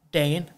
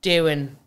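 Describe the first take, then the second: First: "doing" said as "Dane" in Derry; Derry-accented "Dane", vowel like "day". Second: Said in the usual way. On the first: Real, not acted. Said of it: "came out with the fucking Derry accent".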